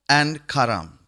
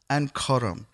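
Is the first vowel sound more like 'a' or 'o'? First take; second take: a; o. First: The first vowel sounds like 'a'. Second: The first vowel sounds like 'o'. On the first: "we'll just pronounce it as we read it" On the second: "the A should be pronounced as an O"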